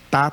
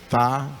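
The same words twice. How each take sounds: First: It starts with a plain t sound. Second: It starts with a th sound, tongue out. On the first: "simplesmente o som de T" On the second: "com a língua de fora, assim"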